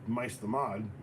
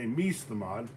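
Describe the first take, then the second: First: The first word has an 'eye' vowel, like mice. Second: The first word has an 'ee' vowel, like meese. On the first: "people are going to say mice mice the mod" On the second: "they're going to say meese the mod"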